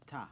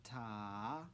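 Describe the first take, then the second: First: "ta" said briefly, on one beat; one quick falling "ta"; short single beat. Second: "Ta" drawn out over two beats; long sustained "Ta"; held half note. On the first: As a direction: cut "ta" short with no held vowel. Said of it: "we end with a ta". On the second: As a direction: stretch the vowel of "Ta" long, lifting at the end. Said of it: "Half note". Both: Shown as a demonstration.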